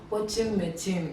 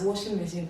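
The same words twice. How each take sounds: First: It is said in an imitated, adapted foreign accent. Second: It is said in the speaker's own everyday accent. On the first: The speaker calls it wrong. "and I said" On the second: The speaker calls it right. "Instead of pronouncing that thing as"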